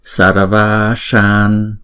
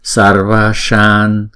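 First: The vowels are held for two beats. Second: The vowels are held for two beats.

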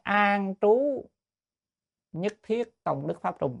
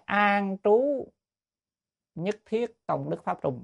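First: The second word has a high, rising tone. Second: The same.

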